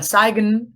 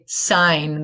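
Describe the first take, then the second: First: A G sound is pronounced in the word. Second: No G sound is pronounced in the word. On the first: The speaker calls it wrong. "it's not a sigen" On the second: The speaker calls it right. "It's a sign"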